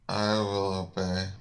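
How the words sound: It is mumbled, quiet and unclear.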